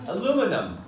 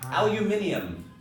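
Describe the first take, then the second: First: It is said the American way. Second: It is said the British way.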